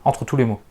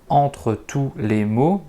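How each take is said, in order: First: The words are slurred together into one. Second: Each word is said clearly and separately. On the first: "il va dire ... c'est mâcher les mots" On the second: "au lieu de dire"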